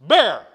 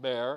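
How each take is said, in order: First: The word is said loudly and forcefully. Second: The word is said softly and weakly. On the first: The speaker calls it right. "You gotta be forceful" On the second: The speaker calls it wrong. "not bear"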